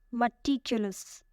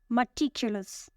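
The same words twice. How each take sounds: First: "Meticulous" said slowly, weight on TIC; stress on second syllable. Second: Said in the usual way. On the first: Shown as a demonstration. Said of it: "The stress is on the second syllable". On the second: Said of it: "The first word is".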